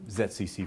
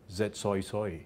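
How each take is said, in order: First: Said in the usual way. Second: Put-on a light Australian accent, "soy soy" with a wide oy vowel; mock Australian accent. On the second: New Zealand lecturer teasing Australian counterparts, light mock Australian accent. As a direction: lightly imitate Australian colleagues saying "soy soy". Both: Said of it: "Or as my Australian counterparts would say".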